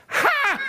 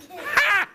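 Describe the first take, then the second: First: High scornful ha, then indignant; scoffing, louder. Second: Very high, sharp mocking laugh-word; scornful ha. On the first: Acted. Stan scoffs louder at the question about cows. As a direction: scoff louder, he's insulted. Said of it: "a bit louder than that". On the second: Stan scoffs at the fairy queen, a high sharp ha. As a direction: scoff at the idea. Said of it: "Stan Bolivan said".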